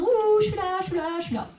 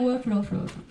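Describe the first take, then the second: First: It is said loudly and with energy. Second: It is said quietly and with little energy.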